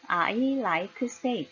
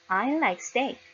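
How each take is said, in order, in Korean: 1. 한국식으로 음절이 더 붙어서 말했습니다. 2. 원어민 영어 발음으로 말했습니다. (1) "한국어로 해보겠습니다" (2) "영어로는 삼음절입니다"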